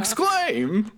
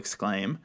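First: It is called out in a newsboy-style voice. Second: It is said in a plain speaking voice. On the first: The speaker calls it right. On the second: The speaker calls it wrong.

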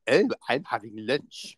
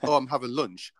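First: It is said in an exaggerated posh voice. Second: It is said in a plain voice.

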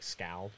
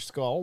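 First: The vowel sounds like the one in 'howl'. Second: The vowel sounds like the one in 'dull'. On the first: The speaker calls it right. "It's probably like Scowl" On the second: The speaker calls it wrong. "I probably even said it wrong"

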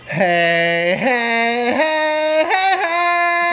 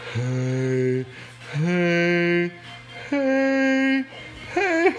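First: It is said at a higher pitch. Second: It is said at a lower pitch.

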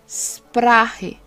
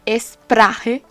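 First: The word starts directly with a sh sound. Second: The word starts with an added e vowel. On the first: The speaker calls it right. "el mismo sonido de mandar a callar a las personas" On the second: The speaker calls it wrong. "No vayas a decir Sprache, porque está muy muy mal dicho"

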